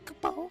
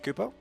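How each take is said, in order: First: It is said in a high-pitched voice. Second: It is said in a lower-pitched voice.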